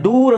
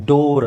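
First: ಡೂರ್ said with a long oo; wrong oo in door. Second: ಡೋರ್ said with a long oh; correct long o. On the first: Teacher asking if learners read door that way, wrong oo. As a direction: give ಡೂರ್ the vowel of moon. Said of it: "ಇಲ್ಲ, ಅದನ್ನ ಏನು ಓದ್ಬೇಕು". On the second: Teacher correcting how door is read, long oh. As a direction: say ಡೋರ್ with oh, not oo. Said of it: "ಡೋರ್ ಅಂತ ಓದ್ಬೇಕು". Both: Shown as a demonstration.

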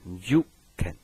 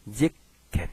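First: "jiken" said as juk-ken, keeping the ju glide; yōon kept, JU. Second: "jiken" with a short ji and a stopped k; shortened juu to JI. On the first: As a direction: say ju, not ji, in "jiken". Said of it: "它缩音不要缩那么多". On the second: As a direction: say "jiken" as jik-ken, clipping the first vowel to i. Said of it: "它会缩音". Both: Shown as a demonstration.

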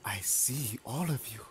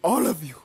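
First: Hushed, creepy whisper; stalker's whisper. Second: High, loud burst on a falling tune; loud killer taunt. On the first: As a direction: whisper it to your unseen prey. Killer stalking all the survivors. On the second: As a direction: throw the taunt out loudly. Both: Pretend.

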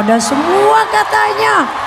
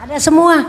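First: Much higher, shouting it back in amazement; excited high shout. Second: Said in the usual way. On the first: Real, not acted.

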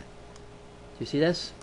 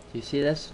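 First: Slow hushed question; hushed, drawn-out question; whisper. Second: Said in the usual way. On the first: Real, not acted. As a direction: lean in and whisper it. Whispered aside while pointing.

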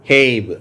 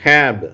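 First: ஹேப் said with a long ay vowel. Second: ஹேப் said with a short a, like hap. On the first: Teacher gives the long a version. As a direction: stretch ஹேப் to ay. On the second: Teacher continues the short a drill. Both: Shown as a demonstration. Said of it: "இன்னும் கூட நம்ம தொடர்ந்து வாசிக்கலாம்".

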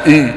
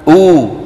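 First: أو said as a fronted ü; French u. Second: أو as a long, pure oo; الواو العربية. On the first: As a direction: round the lips on ee for أو. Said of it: "ما عندنا في العربية". (أو بصوت u الفرنسي) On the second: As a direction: say أو with a back, rounded oo. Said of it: "شو عندنا". (أو واوًا عربية خالصة) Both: Shown as a demonstration.

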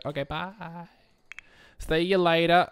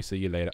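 First: Higher and louder, sing-song farewell; called-out goodbye. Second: Said in the usual way. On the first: Acted. Voicing a Sim calling goodbye to the departing guest, loud and bright. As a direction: call it out across the room.

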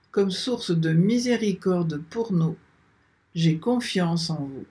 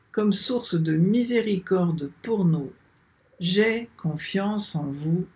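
Both takes have the same delivery.

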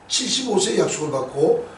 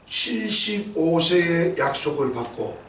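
First: 칠십오 lifted, rising end; stress on 칠십오. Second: 세의 drawn out, falling; slow, weighty. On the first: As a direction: hit 칠십오, rise at end. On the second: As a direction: slowly lean on 세의. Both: Shown as a demonstration.

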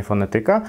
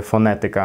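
First: Fonetyka stressed on the second-to-last syllable, fone-TY-ka; wrong stress. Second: Fonetyka stressed on the third-to-last syllable, fo-NE-ty-ka; correct stress. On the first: Teacher showing the wrong Polish stress. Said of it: "a nie". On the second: Teacher showing correct Polish stress. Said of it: "dlatego na przykład mówię". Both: Shown as a demonstration.

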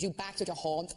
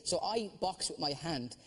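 First: "back" in a Belfast accent, a short flat a where "box" would be; a light Belfast accent on "back". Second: Said in the usual way. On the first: Shown as a demonstration. A comic demonstrating to the panel the Belfast swap of O for A. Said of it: "if you wanna do a Belfast accent". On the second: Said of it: "you have to change the O's and the A's".

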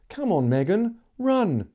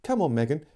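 First: Urgent plea. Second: Urging. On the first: Acted. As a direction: hurry her along, pitch climbing on "run". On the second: A narrator's reading. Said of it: "Amy urged".

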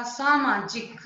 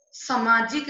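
First: Said in the usual way. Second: सामाजिक said "samaajik"; wrong short vowel. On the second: Shown as a demonstration. Teacher correcting a mistake, सामाजिक with short first a. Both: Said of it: "नहीं होता".

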